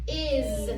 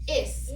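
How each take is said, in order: First: The final S is a buzzing, voiced sound. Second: The final S is a hissing, unvoiced sound. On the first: The speaker calls it right. "so let's try it voiced" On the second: The speaker calls it wrong. "Let's try it unvoiced"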